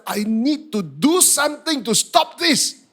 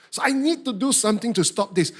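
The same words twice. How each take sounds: First: Slow, high, loud angry determination; worked-up vow to oneself; angry resolve. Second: Said in the usual way. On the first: Retold or imitated. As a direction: punch it out, fed up and fuming. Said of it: "I was getting more and more angry".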